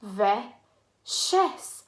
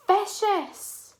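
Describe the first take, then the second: First: "Vicious" in two parts with a pause between; syllable by syllable. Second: "Vicious" joined up, high and emphatic; blended whole word. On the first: Teacher chanting along with children, "Vicious" broken into two syllables. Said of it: "Let's do it together". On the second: Teacher completes the word for children, "Vicious" blended, high and falling. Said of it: "Two syllable word". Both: Shown as a demonstration.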